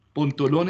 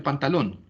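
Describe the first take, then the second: First: Pantalón misread as "Pontolón", with o for both first a's. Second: Said in the usual way. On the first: Shown as a demonstration. Teacher showing a literal reading error, misread "Pontolón". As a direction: say "Pontolón", the non-word with three o sounds. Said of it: "da como resultado una no palabra". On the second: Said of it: "Cambio de un grafema".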